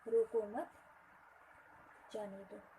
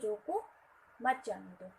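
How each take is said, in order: First: The pause comes right after 'mat'. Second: The pause comes right after 'roko'.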